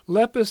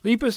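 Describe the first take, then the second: First: It is said with a reformed academic Latin pronunciation. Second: It is said with an American English pronunciation. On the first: "that would be sort of a reformed academic Latin" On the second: "that's American"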